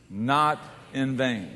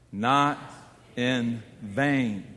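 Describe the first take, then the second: First: The phrase is said at a normal pace. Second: The phrase is said very slowly.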